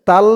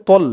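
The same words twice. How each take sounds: First: তাল with light t and open "aa"; thin "taal" for the heavy letter; common mispronunciation. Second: তল with dark t and rounded "o"; correct heavy t. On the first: Teacher showing the error, তাল said light. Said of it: "তাল বলে ফেলে". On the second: Teacher giving the correction, তল said heavy and rounded. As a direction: say তল as heavy "tawl". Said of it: "এখানে ত বলতে হবে". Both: Shown as a demonstration.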